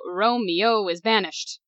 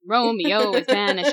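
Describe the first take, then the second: First: The word 'banished' is said with two syllables. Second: The word 'banished' is said with three syllables. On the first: The speaker calls it wrong. "can't go, Romeo is banished. Like, that doesn't work" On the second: The speaker calls it right. "There you go"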